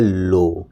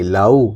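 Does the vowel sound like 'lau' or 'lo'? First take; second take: lo; lau. First: The word sounds like 'lo', with a plain o. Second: The word sounds like 'lau', rhyming with cow. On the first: The speaker calls it right. "ओ से ओ की मात्रा हो गया" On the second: The speaker calls it wrong. "नहीं"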